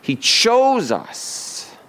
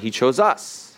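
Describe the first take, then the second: First: The stress falls on the word chose. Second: The stress falls on the word us. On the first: The act of choosing freely is what matters. The speaker calls it right. "the emphasis is on chose, not us" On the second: Being picked over others is what matters. The speaker calls it wrong. "We put the emphasis on he chose us"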